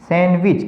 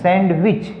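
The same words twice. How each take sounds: First: The word is said with the d silent. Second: The word is said with the d pronounced. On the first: The speaker calls it right. "क्योंकि डी तो silent है" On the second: The speaker calls it wrong. "हम क्या कहते हैं सैंडविच, लेकिन सैंडविच नहीं है"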